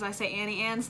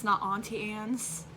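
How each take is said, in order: First: Auntie said with a flat ant vowel. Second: Auntie said slowly with a broad ah vowel, ahntie. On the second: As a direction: stretch Auntie into ahntie, slower. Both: Shown as a demonstration.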